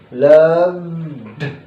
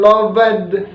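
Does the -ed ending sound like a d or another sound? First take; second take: d; another sound. First: The ending is pronounced as a d sound. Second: The ending is not pronounced as a d sound. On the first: The speaker calls it right. "maka itu akan dibaca de" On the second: The speaker calls it wrong. "Jadi bukan loved"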